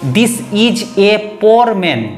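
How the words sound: It is said with a Bengali English accent. The speaker calls it wrong.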